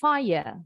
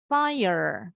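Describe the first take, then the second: First: The final R sound is dropped. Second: The final R sound is clearly pronounced. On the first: "kalau orang Inggris" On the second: "orang Amerika masih bunyi R-nya"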